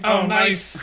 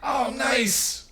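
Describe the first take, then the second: First: Said in the usual way. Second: Higher-pitched, softly delighted oh nice; delighted reaction. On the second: Acted. Receiving a jacket handed over, delighted. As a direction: lift it high, pleasantly surprised. First take, corrected by second.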